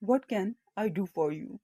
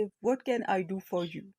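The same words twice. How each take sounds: First: Said in the usual way. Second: Said slowly and clearly; slow it down so learners follow; slow model reading. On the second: Shown as a demonstration. Teacher to Urdu learners, slow clear model. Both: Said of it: "اس طرح سے بولیں گے".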